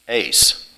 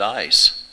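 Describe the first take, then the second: First: The vowel sounds like 'ay' as in 'day'. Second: The vowel sounds like 'eye' as in 'ice'. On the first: The speaker calls it wrong. "it says you pronounce that first word, ace" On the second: The speaker calls it right. "most people that I've known that knew a little bit of Greek pronounces it ice"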